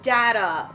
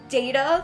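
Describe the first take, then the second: First: The first vowel sounds like 'dah'. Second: The first vowel sounds like 'day'. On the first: "like D A H, ta" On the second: "like D A Y, ta"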